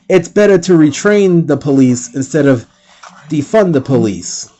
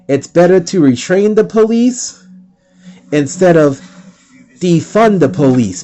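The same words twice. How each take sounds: First: It is said at normal speed. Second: It is said slowly and clearly.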